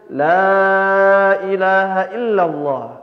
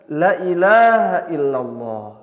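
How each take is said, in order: First: The long vowels are held at full length. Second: The long vowels are cut short. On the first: The speaker calls it right. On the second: The speaker calls it wrong.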